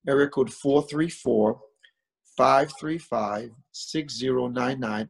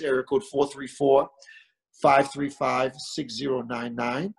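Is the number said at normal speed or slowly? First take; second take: slowly; normal. First: It is said a little more slowly. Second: It is said at a normal pace.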